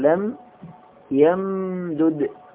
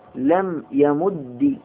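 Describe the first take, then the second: First: The two d sounds are separate, ending without vowel. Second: The doubled final d ends with an i vowel. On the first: "أفك الإدغام" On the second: "بكسر"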